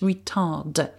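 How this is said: It is pronounced with an English accent.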